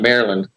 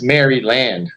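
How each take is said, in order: First: The first part is shortened and run together. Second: The first part sounds fully like 'Mary'. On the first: The speaker calls it wrong. "and not Maryland. Kind of just, yeah, we don't say it correctly" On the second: The speaker calls it right. "if you look at it, it's Maryland, you know, like Mary"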